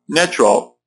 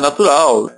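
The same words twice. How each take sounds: First: It is said with English vowels and sounds. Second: It is said with Portuguese vowels and sounds. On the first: The speaker calls it right. "seria natural" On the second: The speaker calls it wrong. "cuidado para não falar"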